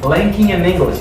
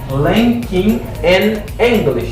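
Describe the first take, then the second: First: The words run together smoothly, linked. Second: The words are said separately, not linked. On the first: The speaker calls it right. "Now I make linking. I say linking in English" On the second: The speaker calls it wrong. "I don't say linking in English"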